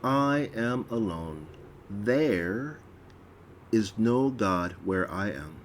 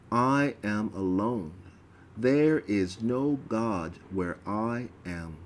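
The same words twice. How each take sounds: First: There lifted a little and held, pause after; slight stress on There. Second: Said in the usual way. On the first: Shown as a demonstration. Reader redoing the line with a slight lean on There. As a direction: lean lightly on There before going on. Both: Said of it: "there is a slight emphasis on the word there".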